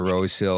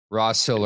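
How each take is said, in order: First: Rose Hill with a long o, like the flower; ROSE pronunciation. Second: Ross Hill with a short open vowel, like 'boss'; ROSS pronunciation. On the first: Host offers name options, Rose Hill with long o. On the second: Host offers name options, Ross Hill rhyming with boss. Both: Shown as a demonstration. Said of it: "Take your pick".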